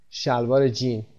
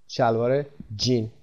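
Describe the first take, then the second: No difference in how they are said.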